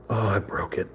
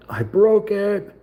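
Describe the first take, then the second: First: Said in the usual way. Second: High, slow, whiny I broke it; mock whine. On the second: Builder mock-whining to viewers over a snapped piece, high and slow. Breaks a small model piece.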